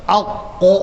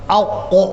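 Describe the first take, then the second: Both takes have the same delivery.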